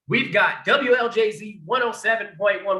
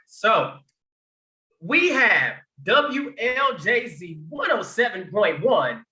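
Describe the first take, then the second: First: It is said in his normal speaking voice. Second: It is said in a radio announcer voice.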